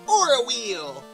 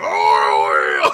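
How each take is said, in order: First: It is said without anger. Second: It is said in a really angry way.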